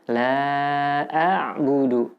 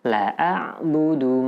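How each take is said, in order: First: The vowel of the first word is held long. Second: The vowel of the first word is cut short. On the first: I will not worship what you worship. The speaker calls it right. "seharusnya panjang" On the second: I will surely worship what you worship. The speaker calls it wrong. "jika dipendekkan"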